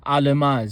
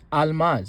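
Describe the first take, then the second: First: Almaz said as a-la-maz with a vowel after the l; wrong version. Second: Almaz said slowly with a quick stop after the l; correct version. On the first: Teacher showing the mistake in the word for diamond. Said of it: "We're not saying almaz". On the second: Teacher giving the right pronunciation after the wrong one. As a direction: say almaz pausing a split second after the l. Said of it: "No, it's almaz". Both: Shown as a demonstration.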